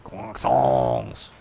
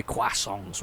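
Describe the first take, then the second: First: Low, drawn-out mock French accent; deep, exaggerated French "Croissants"; bad French accent. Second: Said in the usual way. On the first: Shown as a demonstration. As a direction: ham up a terrible French accent. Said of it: "bad French accent".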